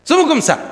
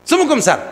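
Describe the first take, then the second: The two takes are said the same way.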